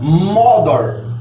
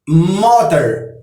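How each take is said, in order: First: It is said with Old English pronunciation. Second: It is said with modern English pronunciation. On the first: This is how English speakers said it a thousand years ago. "no tempo do inglês antigo, essa mother era, era pronunciada" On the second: This is how English speakers say it today. "Hoje em dia, é, os ingleses falam"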